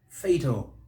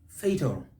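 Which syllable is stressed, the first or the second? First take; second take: first; first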